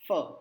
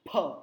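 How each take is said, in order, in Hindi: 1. होंठ दांतों से लगाकर नरम फ, कोई हवा नहीं। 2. दोनों होंठ खुलते हैं और तेज़ हवा निकलती है। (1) "फ्रूट, ... तो वो फ बोलेगा ... हवा नहीं लगेगी, इसका मतलब हमारा उच्चारण गलत है" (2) "तो उसका उच्चारण क्या है"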